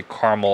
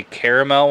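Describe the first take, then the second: First: Caramel said as CAR-muhl; pronunciation for candy. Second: Caramel said as CARE-uh-mel; pronunciation for taste. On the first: Reviewer contrasting his own usage, caramel as CAR-muhl. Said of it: "but I say caramel". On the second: Reviewer describing taste words, caramel as CARE-uh-mel. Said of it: "I think I always say caramel". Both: Shown as a demonstration.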